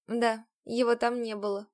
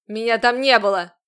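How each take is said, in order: First: Said in the usual way. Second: Menacing shout. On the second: A narrator's reading. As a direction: bark "Меня там не было" at her. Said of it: "Грозно прищурился Рузерт".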